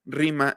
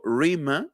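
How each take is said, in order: First: Said in the usual way. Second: Rima with a slow retroflex English r and no Spanish trill. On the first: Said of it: "en vez de decir rima". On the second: Shown as a demonstration. Teacher showing an allophone of R, slow English r in rima. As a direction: say rima slowly, curling the r like in English. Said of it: "digo rima".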